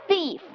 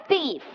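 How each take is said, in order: Both takes have the same delivery.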